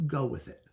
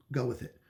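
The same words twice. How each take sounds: The two takes are said the same way.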